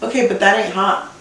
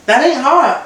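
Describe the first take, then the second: First: Said in the usual way. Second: Emphatic repeat, leaning hard on "ain't"; stress on AIN'T. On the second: Real, not acted. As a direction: punch "ain't" higher, falling after.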